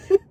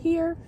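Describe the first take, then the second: First: High, burst-out mock shout; accidental yell. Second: Said in the usual way. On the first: Shown as a demonstration. Student trying to answer roll normally, yelling instead. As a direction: let it explode out by mistake. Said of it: "but then it'll be like". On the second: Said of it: "I try to just be like".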